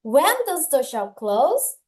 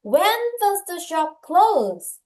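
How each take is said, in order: First: "close" lifts in pitch at the end; rising question ending. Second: "close" drops in pitch at the end; falling question ending. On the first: Teacher rereading after telling class to raise the ending, "close" rising. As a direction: really ask it, raising "close". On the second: English teacher leading the class in reading, falling tune on "close". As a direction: let "close" fall like a statement. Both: Shown as a demonstration. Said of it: "물어봐야지 끝을 올려".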